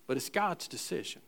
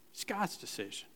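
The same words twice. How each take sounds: First: Soft emphasis. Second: "God's" said very softly, almost breathed; quiet echo of It's God's decision; hushed repeat. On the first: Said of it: "You see". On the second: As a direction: let the repeat fall to a hush. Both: Shown as a demonstration.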